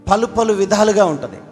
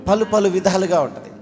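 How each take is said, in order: Both takes have the same delivery.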